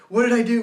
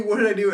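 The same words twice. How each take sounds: First: Loud, high panicked cry, fully in the moment. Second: Panicked repeat. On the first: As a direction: blurt it out in full panic, louder and higher. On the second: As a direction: still panicked, a little less loud and high than the first cry. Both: Retold or imitated. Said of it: "full panic mode".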